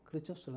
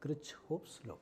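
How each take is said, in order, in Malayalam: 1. പേര് ചുരുക്കിയതാണ്, 'os' എന്ന ശബ്ദത്തിലാണ് അവസാനിക്കുന്നത്. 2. പേര് പൂർണ്ണമായി പറയുന്നു, 'hoffs' എന്ന് അവസാനിക്കുന്നു. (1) "ഞാൻ ഉച്ചരിക്കുന്നത് ക്രിച്ചോസ് എന്നാണ്, ഞാനങ്ങനെ പഠിച്ചുപോയി" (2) "നിങ്ങൾ വേണമെങ്കിൽ ക്രിച്ച്ഹോഫ്സ് നോക്കാം"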